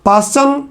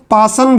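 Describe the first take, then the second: First: "पासचन" with a ch sound after the s; preferred pronunciation. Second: "पासन" said without the च sound; variant pronunciation. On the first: Teacher restating the series name for students, "पासचन" with ch. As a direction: say "पासचन", keeping the च in the middle. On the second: Teacher giving students the other pronunciation, variant "पासन" without ch. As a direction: say "पासन", the ch dropped from the middle. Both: Shown as a demonstration. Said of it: "कुछ लोग पासन भी बोलते हैं".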